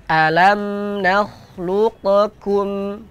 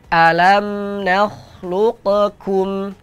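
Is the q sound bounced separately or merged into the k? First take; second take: bounced; bounced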